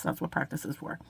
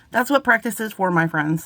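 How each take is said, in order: First: Murmured again, much softer and lower; a soft afterthought repeat. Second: Said in the usual way. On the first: Real, not acted. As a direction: echo it quietly to yourself. Repeats motto, second time softer.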